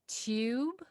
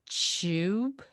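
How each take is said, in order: First: It begins with a plain t sound. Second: It begins with a ch sound. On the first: "One is t t tube" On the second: "So ch, no hesitation"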